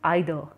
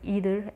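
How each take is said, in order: First: The word is said the British way. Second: The word is said the American way. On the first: "Britishers, they used to pronunciate this as either" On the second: "the Americans used to speak it as an either, pronunciate as either"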